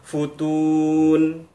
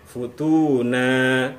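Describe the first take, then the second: First: The word ends abruptly on a bare 'n'. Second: The word ends in a lengthened 'a' vowel. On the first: The speaker calls it wrong. "atau kita baca futun" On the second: The speaker calls it right. "dipanjangkan karena ada alif di akhirnya"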